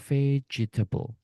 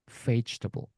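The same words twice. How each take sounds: First: The second e is pronounced as a syllable. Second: The second e is silent, not pronounced. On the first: The speaker calls it wrong. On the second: The speaker calls it right.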